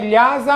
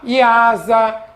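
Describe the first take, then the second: First: It begins directly with the 'l' sound. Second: It begins with an 'ee' sound, no 'l'. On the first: The speaker calls it right. "mas o correto é" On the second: The speaker calls it wrong. "tem muita gente que fala errado"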